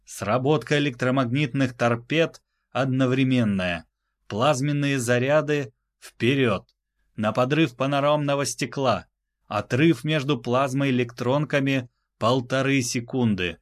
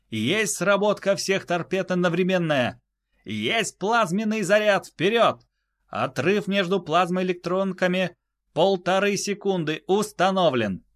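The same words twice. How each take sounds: First: Crisp commanding orders; clear loud commands. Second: High crisp readback; high confirming voice. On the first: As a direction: call each phrase clearly. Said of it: "Чётко и громко проговорил он каждую важную фразу". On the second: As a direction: repeat the orders back sharply. Crew repeats back orders. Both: Acted.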